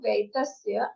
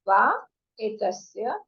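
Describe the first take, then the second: First: The two words are joined into one word. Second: The two words are said separately.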